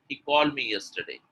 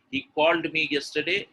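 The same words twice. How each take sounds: First: "called" said as "call", no d before "me"; mistaken dropped ending. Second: "called" with its d sounded before "me"; correct word ending. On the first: Teacher imitating learners' mistake, "called" flattened to "call". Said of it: "a lot of people say". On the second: Teacher modelling the intended sentence, "called" with a clear ending. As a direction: keep the final d of "called" distinct. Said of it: "When you want to say". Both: Shown as a demonstration.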